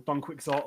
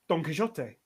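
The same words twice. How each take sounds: First: It is said with an English accent. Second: It is said with an Argentinian Spanish accent. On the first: "or in the English way" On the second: "in Argentinian Spanish"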